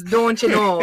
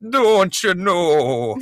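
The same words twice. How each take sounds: First: Midwest accent. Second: Put-on Midwest accent drifting Scottish, slow and high; a mangled Midwest accent, drawn out slowly. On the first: Shown as a demonstration. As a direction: show the real Midwest "don't you know". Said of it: "not like". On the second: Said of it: "it's don't you know, not like".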